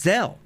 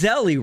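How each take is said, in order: First: The word ends plainly without an added vowel. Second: The word ends with an added 'ee' sound. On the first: This is the standard way of saying it. "Now he says Zelle" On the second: This is the usual quirky way of saying it. "He always says Zelly"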